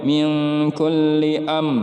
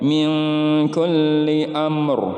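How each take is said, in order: First: The final R sound is dropped. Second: The final R sound is pronounced. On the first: The speaker calls it wrong. "ro-nya nggak dibaca" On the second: The speaker calls it right. "harus dibaca huruf ro-nya"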